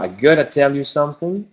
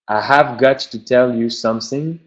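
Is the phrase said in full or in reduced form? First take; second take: reduced; full. First: Have is dropped and got to becomes gotta. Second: Every word is said fully and separately.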